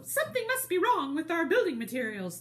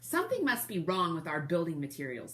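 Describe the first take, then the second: First: Much higher, louder squeaky wolves; little wolf voice. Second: Said in the usual way. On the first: Shown as a demonstration. Reader correcting herself to voice the little wolves, high and squeaky. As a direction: redo it as the worried little wolves. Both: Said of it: "it's the wolves talking".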